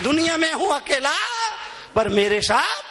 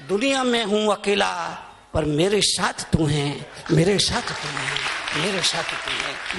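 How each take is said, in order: First: Raised call, then dropping back; called-out prayer. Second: Tender prayer. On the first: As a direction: prompt the crowd to finish it. Same line called out to crowd. (ऊँची पुकार, फिर उतरता स्वर) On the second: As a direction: confide it humbly to God. Devotional line, low first. (धीमे, गहरे स्वर में भक्ति) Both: Real, not acted.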